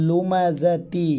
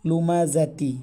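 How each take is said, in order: The two takes are said the same way.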